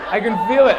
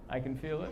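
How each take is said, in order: First: Louder declaration. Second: Muttered. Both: Shown as a demonstration.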